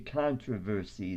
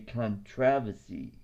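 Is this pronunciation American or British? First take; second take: American; British. First: It is said with an American pronunciation. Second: It is said with a British pronunciation. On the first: This is how the speaker's own country says it. "we say" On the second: This is how the other country says it. "They say"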